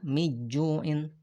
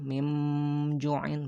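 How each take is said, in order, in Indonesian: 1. Nun dihilangkan sepenuhnya sebelum jim. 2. Nun diubah menjadi bunyi mim. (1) "bukan juga miju'in" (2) "bukan juga diganti jadi mim"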